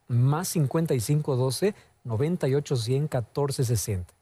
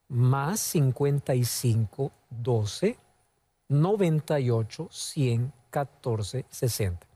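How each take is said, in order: First: The number is said fast. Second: The number is said slowly.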